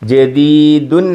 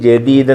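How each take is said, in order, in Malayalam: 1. വാക്കിന്റെ അവസാനം '-un' എന്ന അക്ഷരം ചേർത്തിരിക്കുന്നു. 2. വാക്ക് അവസാന വ്യഞ്ജനത്തിൽ നിർത്തുന്നു. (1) "ജദീദുൻ ആണ്" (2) "ഫുൾ സ്റ്റോപ്പ് ആയതുകൊണ്ട് ജദീദ് എന്ന് പറഞ്ഞു"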